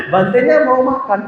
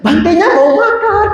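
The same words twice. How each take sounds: First: High mock nag, less sung; lightly voiced insistent mother, pitched up; mothers nagging. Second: High sing-song imitation of nagging mothers; mock-nag in a very high chant; pitched way up, imitating insistent women. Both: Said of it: "Ibu-ibunya bilang lagi".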